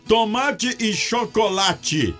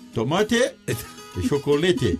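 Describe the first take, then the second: First: The words have ordinary Portuguese pronunciation. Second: The words have a foreign, Aztec-style pronunciation. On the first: "algumas palavras da língua dos aztecas pareciam com o nosso português" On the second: "Na língua azteca eram tomate e chocolate"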